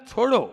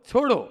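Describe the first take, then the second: No difference in how they are said.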